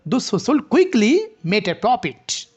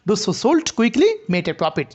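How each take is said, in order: First: "quickly" punched with rising pitch, then "made a profit" falling; slow demo with raised "quickly"; stress on quickly. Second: "sold quickly" grouped together, said slowly; slow example reading with "sold quickly" as one unit; stress on sold quickly. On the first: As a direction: set "quickly" apart and lift it. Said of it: "কুইকলিকে একটু rising করতে হবে". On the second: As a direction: peak on "sold", keep "quickly" tied to it. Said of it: "সোল্ডের সাথে আমরা এটাকে rising intonation". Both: Shown as a demonstration.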